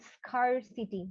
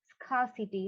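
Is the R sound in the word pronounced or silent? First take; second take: pronounced; silent. First: The R sound is pronounced. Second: The R sound is silent. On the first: The speaker calls it wrong. "it's not scarcity" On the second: The speaker calls it right. "here the R is silent"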